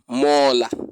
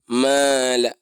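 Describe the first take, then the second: First: The long vowel sounds dark and rounded, like o. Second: The long vowel sounds light and open, like a. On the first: The speaker calls it wrong. "And it's not mola" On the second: The speaker calls it right. "It's mala"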